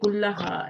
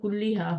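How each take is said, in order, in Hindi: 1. पहला शब्द a स्वर पर ख़त्म होता है। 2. पहला शब्द i स्वर पर ख़त्म होता है। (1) "कुल्ला पे भी जबर लगाई" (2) "यहाँ जेर होती"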